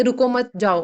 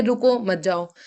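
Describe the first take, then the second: First: रुको मत as one unit, then जाओ; pause after मत. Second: रुको, then मत जाओ as one unit; pause after रुको. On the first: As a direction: break clearly between मत and जाओ. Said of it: "लगता है कि ... रुकना नहीं है". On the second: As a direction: break clearly between रुको and मत. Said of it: "हम बोल रहे हैं". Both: Shown as a demonstration.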